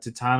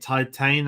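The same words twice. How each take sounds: First: The name is said with a French pronunciation. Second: The name is said with an English pronunciation. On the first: The speaker calls it right. "I believe the French pronunciation is like uh" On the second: The speaker calls it wrong. "I got told off for calling it Titan"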